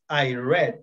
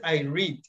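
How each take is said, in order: First: Read is pronounced as its past-tense form. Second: Read is pronounced as its present-tense form. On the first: The action happened in the past. "And in simple past is I read" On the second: The action happens habitually now. "in simple present is I read"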